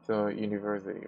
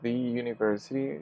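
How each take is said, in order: First: The word 'the' is said like 'thuh'. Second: The word 'the' is said like 'thee'. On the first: The speaker calls it right. "So we say the university" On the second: The speaker calls it wrong. "we don't say the university"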